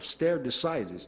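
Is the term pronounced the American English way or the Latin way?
American. It is pronounced with an American English accent. The speaker calls it wrong. "Alguns americanos, com a pronúncia deles, falam"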